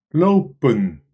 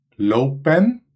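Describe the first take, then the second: First: The last vowel is a weak schwa sound. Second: The last vowel is a full, clear vowel. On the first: "het klinkt als lopen" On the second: "We schrijven lopen"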